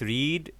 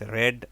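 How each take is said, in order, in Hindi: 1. स्वर लंबा है, 'reed' जैसा। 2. स्वर छोटा है, 'red' जैसा। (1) "first form is रीड" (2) "as in R E D"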